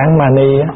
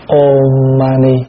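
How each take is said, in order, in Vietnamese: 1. Âm tiết đầu được phát âm là 'an'. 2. Âm tiết đầu được phát âm là 'om'. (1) "Thí dụ mình đọc án mani" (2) "Tiếng của người ta đọc có một chữ thôi, ôm"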